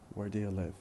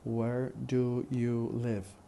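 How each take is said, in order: First: It is run together with a weak 'do'. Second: Each word is said fully and carefully. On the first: "then in fast speech" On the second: "First in careful speech"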